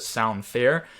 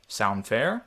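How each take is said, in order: First: Said in the usual way. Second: Calm, easy, reasonable ask; reasonable man tone. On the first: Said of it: "So you'll see right here I put". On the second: Shown as a demonstration. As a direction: sound totally fair and unthreatening. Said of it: "my tonality changed to this reasonable man tone".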